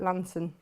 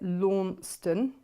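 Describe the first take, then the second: First: The name is said in a clipped, shortened form. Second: The name is said in its full spelled-out form. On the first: This is how local people say it. "Those that live in Cornwall call it Lanson" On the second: This is how people from outside the area say it. "those that aren't from Cornwall call it Launceston"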